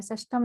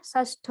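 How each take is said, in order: First: षष्ठम with an added final "am"; wrong form. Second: षष्ठ ending on the aspirated ठ; correct form. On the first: Teacher citing the error, षष्ठम ending in "m". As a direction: end षष्ठम on a closed म. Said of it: "षष्ठम नहीं होता". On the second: Teacher giving the word for six, षष्ठ ending in "th". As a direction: close षष्ठ with no "m". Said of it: "षष्ठ होता है". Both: Shown as a demonstration.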